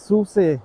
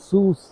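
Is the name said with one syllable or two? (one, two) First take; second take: two; one. First: The name ends with a pronounced final vowel. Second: The name ends without any final vowel. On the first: The speaker calls it right. "se dice SUSE" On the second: The speaker calls it wrong. "no SUS"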